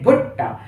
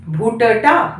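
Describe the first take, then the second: First: Said in the usual way. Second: भुट्टा with first ट as a full syllable; split double consonant. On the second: Shown as a demonstration. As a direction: say भुट्टा as "bhu-ta-taa". (भुट्टा में पहले ट को पूरा बोलते हुए) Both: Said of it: "भुट्टा नहीं".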